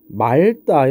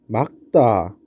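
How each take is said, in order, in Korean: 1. 첫 음절은 l 소리로 끝납니다. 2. 첫 음절은 k 소리로 끝납니다. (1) "이렇게 발음하면 안 되고" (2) "어떻게 막다 이렇게 발음해야 된다"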